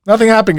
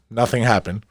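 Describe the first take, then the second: First: Much higher and louder; loud mock exclamation. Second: Said in the usual way. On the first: Host overplaying to listeners, loud high blurt.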